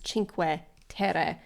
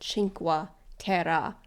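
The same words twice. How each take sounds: First: The first word begins with a ch sound. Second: The first word does not begin with ch. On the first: The speaker calls it right. "It's Cinque Terre, meaning five lands" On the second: The speaker calls it wrong. "I always call it Cinque Terre, which is not what it is"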